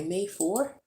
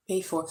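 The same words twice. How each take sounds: First: "May four" rising sharply at the end; checking question. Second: "May four" falling at the end; confirming answer. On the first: Vlogger checking today's date, "May four" asked with a rise. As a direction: lift "four" high, asking. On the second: Vlogger confirming today's date, "May four" said with a fall. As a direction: let "four" drop as settled fact. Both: Real, not acted.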